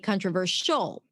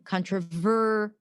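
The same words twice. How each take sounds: First: The stress falls on the last syllable. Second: The stress falls on the 'ver' syllable. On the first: The speaker calls it wrong. "you put the stress at the end" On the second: The speaker calls it right. "the stress on controversial, the ver sound"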